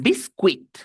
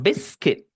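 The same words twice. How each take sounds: First: Biscuit mispronounced as "bis-kwit"; wrong pronunciation. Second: Biscuit said "BIS-kit"; correct pronunciation. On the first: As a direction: voice both U and I in biscuit. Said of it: "la U y la I no suenan U I". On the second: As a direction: silent U in biscuit, short I. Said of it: "suenan I". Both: Shown as a demonstration.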